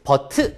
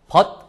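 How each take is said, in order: First: An extra vowel follows the final t sound. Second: The final t is cut off without a vowel.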